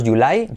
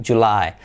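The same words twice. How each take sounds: First: "July" with a light y-like start, rising; contraste de pronunciación. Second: "July" with a firm English j, lower; jota inglesa. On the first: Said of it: "Fijaros, July". («July» con i griega suave, ascendente) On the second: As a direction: give "July" a voiced ch start. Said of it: "letra clave G J". («July» con jota inglesa sonora) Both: Shown as a demonstration.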